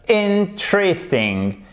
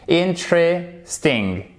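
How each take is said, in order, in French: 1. La voyelle après 'int' est muette. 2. La voyelle après 'int' est muette.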